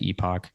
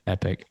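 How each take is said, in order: First: The second syllable sounds like 'ock'. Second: The second syllable sounds like 'ick'. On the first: This is how the speaker says the name. "I pronounce it Epoch" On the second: This is how others say the name. "anybody who who pronounces it Epic"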